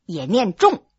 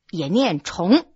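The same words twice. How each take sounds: First: 重 said chóng, rising second tone; 重 read chóng with a rising tone. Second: 重 said zhòng, falling fourth tone; 重 read zhòng with a falling tone. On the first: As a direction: give 重 as chóng, like "repeat". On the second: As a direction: give 重 as zhòng, like "heavy". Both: Shown as a demonstration. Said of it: "告诉你，也念重，也念重".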